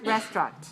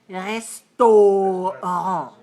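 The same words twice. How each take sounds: First: The middle syllable is dropped, leaving two syllables. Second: The middle syllable has a clear 'oh' vowel. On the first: This is how it is said in English. "two syllables, stress the first" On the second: This is how it is said in French. "how do you say it in French? ... they say oh"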